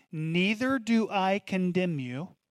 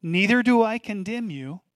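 First: Tender repeat. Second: Proclaimed. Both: Acted. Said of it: "I wanna say that again".

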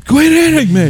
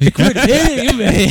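First: Fluttering cries for help. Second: High, slow, laughing mock cry; fluttering cries for help. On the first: Pretend. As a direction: cry out high, hammed-up. Mock cries from the mic. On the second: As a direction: squeal it out through laughter.

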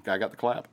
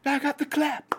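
First: Said in the usual way. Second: High squeaky take on I got the clap; much higher comic repeat; high silly voice. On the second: Shown as a demonstration. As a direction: squeal it like a cartoon character.

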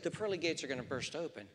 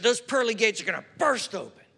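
First: Softer, quick, "pearly" lightly stressed; quiet correction. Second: Mock-gushing, a little louder, "burst" leaned on; overexuberant aunt. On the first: Shown as a demonstration. Nephew correcting his aunt gently, soft and quick. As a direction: say it back softly and plainly. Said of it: "And you're right". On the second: Elderly aunt praising her nephew on the phone, a touch overexuberant. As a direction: gush it like a delighted aunt. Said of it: "she got very overexuberant".

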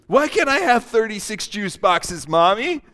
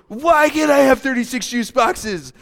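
First: Put-on pleading kid voice; whiny child. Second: Higher, louder demanding whine. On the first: Child begging mommy for juice, whiny. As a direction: beg like a spoiled child. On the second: Acted. Child insisting to mommy, louder whine. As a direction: push the demand harder.

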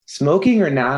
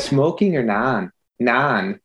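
First: Put-on Minnesota accent. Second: A light Minnesota lilt on the vowels; slight Minnesota accent, long drawn non. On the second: Retold or imitated. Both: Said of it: "say it in a Minnesota accent".

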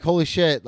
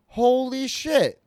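First: Said in the usual way. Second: High, slow, drawn-out "Holy shit"; stunned disbelief. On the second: Retold or imitated. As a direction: let it slide up in shock. Recognizes old teammate as cop.

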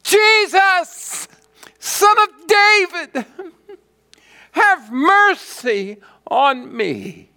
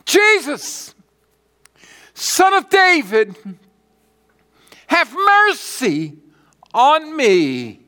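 First: Even more piercing, high, loud plea; crying out all the more. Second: High, loud cry for mercy. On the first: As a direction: shout louder over those hushing you, drawing out the plea. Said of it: "he cried out all the more". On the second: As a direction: cry out like a blind beggar desperate to be heard. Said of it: "And he cried out". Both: Acted.

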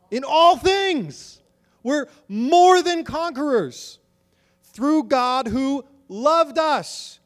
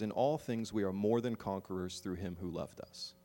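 First: Each word drawn out and ringing; a preacher thundering the verse back at the church; high, loud, slow proclamation. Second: Said in the usual way. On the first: Acted.

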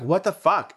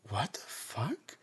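First: High, loud outraged "What the fuck?"; outraged exclamation. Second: Breathless shocked whisper, soft and slow; stunned whisper. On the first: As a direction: fling it at him in disgust. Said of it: "I just look at him like". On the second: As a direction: mutter it in disbelief under your breath. Stunned at what he did. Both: Retold or imitated.

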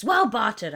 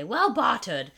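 First: Pirate accent. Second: Gruff pirate voice; pirate accent. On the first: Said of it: "You sound like a pirate". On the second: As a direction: growl it like a pirate. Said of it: "I add this, like, crazy accent onto it". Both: Shown as a demonstration.

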